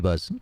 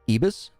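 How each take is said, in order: First: The name ends with the word buzz. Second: The name ends rhyming with Jeebus. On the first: "Or are we going to call you E-Buzz?" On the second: "shall we say it properly as in Ebus? As in Jeebus?"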